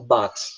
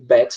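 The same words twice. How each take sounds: First: It is said with a British accent. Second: It is said with an American accent.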